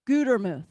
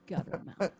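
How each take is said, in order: First: The first vowel is a long u sound. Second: The first vowel is short, like gutter. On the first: "One T makes a long U" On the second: "A lot of people mispronounce it, and they will say guttermouth"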